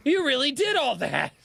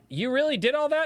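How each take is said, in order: First: Retold stunned admiration; awed exclamation. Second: High, incredulous question; retold wide-eyed doubt; amazed disbelief. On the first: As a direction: say it with full astonishment now convinced. Retold reaction to scars. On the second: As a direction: ask it like you can't believe him.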